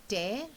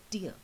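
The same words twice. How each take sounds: First: "tear" with an air sound; tear as ripping. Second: "tear" with an ear sound; tear as weeping. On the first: Teacher recapping both words to children, "tear" rhyming with air. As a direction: pronounce "tear" to rhyme with bear. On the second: Teacher recapping both words to children, "tear" rhyming with ear. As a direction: pronounce "tear" to rhyme with near. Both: Shown as a demonstration. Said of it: "pronunciation is again slightly different".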